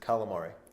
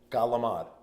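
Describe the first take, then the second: First: It is said with standard American pronunciation. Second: It is said with Italian-American dialect pronunciation. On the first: "What is it?" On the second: "Galamad, another one"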